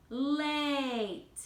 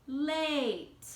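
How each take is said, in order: First: "late" with the A saying its name; teaching the silent e rule on "late"; long a. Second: "late" said slowly with a long a; second take of "late" for the silent e lesson. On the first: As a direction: stretch "late" with a long a sound. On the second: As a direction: draw out the a in "late". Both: Shown as a demonstration. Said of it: "E at the end".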